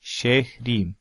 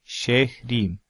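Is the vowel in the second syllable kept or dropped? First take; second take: dropped; dropped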